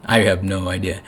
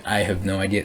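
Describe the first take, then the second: First: Said plainly, a bit softer; mild bewildered admission; simple I don't know; plain shrug. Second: Quieter, letting go; soft surrender. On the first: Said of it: "is for everyone to just be like". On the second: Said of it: "to just surrender and be like". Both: Pretend.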